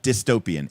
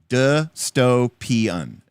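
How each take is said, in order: First: The word is said with fewer than four syllables. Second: The word is said with four syllables. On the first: The speaker calls it wrong. "It's not dystopian" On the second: The speaker calls it right. "It's four syllables"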